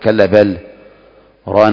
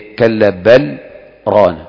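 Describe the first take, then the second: First: The words are cut apart with a full break. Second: A brief pause comes without a breath. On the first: The speaker calls it wrong. "ما تقول كلا بل ران على قلوبهم فتفصل" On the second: The speaker calls it right. "هذا السكت ما تأخذ نفسك"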